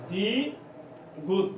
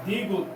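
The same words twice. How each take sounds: First: "দ্বিগুত" very slow, split into দ্বি, then গুত; syllable by syllable. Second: Said in the usual way. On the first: Shown as a demonstration. Teacher breaks up letter name. ("দ্বিগুত" টেনে ভেঙে, দ্বি... গুত)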